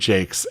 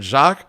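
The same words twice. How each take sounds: First: The name is pronounced in a British way. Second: The name is pronounced in a French way. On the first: "maybe that's the British take on it as opposed to French" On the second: "We've referred to him as"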